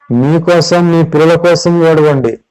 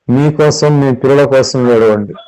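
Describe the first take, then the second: First: Whole line higher, driven home; emphatic repeat. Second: Said in the usual way. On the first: Shown as a demonstration. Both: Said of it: "preacher repeats Jesus' words".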